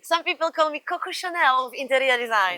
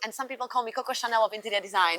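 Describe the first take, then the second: First: It is said more slowly. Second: It is said at a normal speed.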